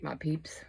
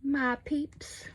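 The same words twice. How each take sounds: First: Said in the usual way. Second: "peeps" pitched way up; cutesy, high repeat of "My peeps"; playful high voice. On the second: Pretend. Playfully repeats her own phrase.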